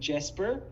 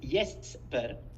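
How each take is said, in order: First: The name begins with an English J sound. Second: The name begins with a Y sound. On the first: "I always Americanize everything" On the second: "the Swedish way of saying uh, saying Jesper is Jesper"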